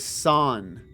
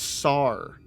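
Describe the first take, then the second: First: The word ends with an 'n' sound. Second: The word ends with an 'r' sound. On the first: This is how the character says it. "it sounds like she's saying it is San" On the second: This is how the spelling suggests it is read. "the way it's spelt, you would think it's Sar"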